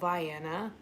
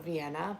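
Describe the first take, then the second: First: It is said with the local Georgia pronunciation. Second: It is said with the usual, widespread pronunciation. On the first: "but here it's called Vienna" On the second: "like many states, we have a Vienna"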